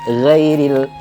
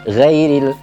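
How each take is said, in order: The two takes are said the same way.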